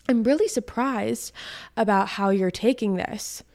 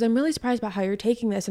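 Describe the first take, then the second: First: Deliberate, spaced-out imitation of his surprise; mock surprise. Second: Fast, run-together imitation of his line; quick retelling. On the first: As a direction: quote him with weighty pauses, imitating surprise. Acting out the ex's reaction. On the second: Repeats the ex's line quickly.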